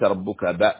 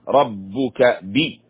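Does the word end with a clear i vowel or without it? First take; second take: without i; with i. First: The final b is cut off with no vowel. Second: The final b is followed by a clear i vowel. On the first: The speaker calls it wrong. "ليس ربك ب" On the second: The speaker calls it right. "الكسرة هنا مهمة"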